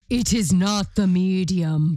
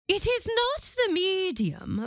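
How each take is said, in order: First: The words are said in a deep voice. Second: The words are said in a normal voice. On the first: The speaker calls it right. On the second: The speaker calls it wrong.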